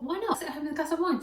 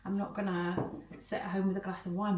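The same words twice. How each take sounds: First: Higher, fast, cheeky self-talk; playful inner voice. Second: Said in the usual way. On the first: Retold or imitated. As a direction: toss it off like a tempting little idea. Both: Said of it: "but I thought".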